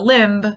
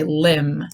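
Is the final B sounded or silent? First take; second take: sounded; silent. First: The final B is pronounced. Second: The final B is silent. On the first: The speaker calls it wrong. "but it's not a limb" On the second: The speaker calls it right. "it's a limb"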